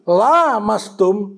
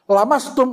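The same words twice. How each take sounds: First: The first vowel is long. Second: The first vowel is short. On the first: It means to touch each other. "saling menyentuh" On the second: It means to touch. "itu menyentuh"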